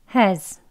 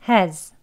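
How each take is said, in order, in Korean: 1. h를 내고 약한 슈와 모음으로 발음합니다. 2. h를 내고 약한 슈와 모음으로 발음합니다.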